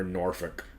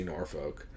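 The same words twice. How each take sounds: First: Norfolk said as "nor-fuk", lower and slower; NORFOLK with reduced vowel. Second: Norfolk said as "nor-foke"; NORFOLK with full second vowel. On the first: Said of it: "or Norfolk". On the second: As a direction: give Norfolk a long O in "folk". Contrasts two ways of saying Norfolk. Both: Shown as a demonstration.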